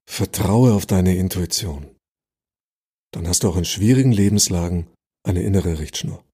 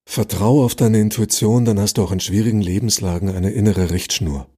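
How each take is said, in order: First: There is a pause after Intuition. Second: It runs on without a pause after Intuition.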